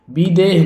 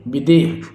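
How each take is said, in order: First: विदेह as "bee-deh"; long first i. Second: विदेह as a quick "bi-deh"; short first i. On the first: Teacher showing the mistake, विदेह with a long "ee". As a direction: stretch the first vowel of विदेह. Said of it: "विदेह नहीं". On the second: Teacher correcting the word, विदेह with a short "i". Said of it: "विदेह शुद्ध होगा". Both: Shown as a demonstration.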